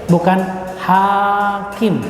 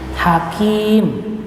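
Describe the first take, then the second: First: The first vowel is long. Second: The second vowel is long. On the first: It means a judge who decides cases. "Bukan ha alif kaf mim" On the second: It means a wise person who speaks wisdom. "jadi kalau menulisnya itu ha kaf ya mim"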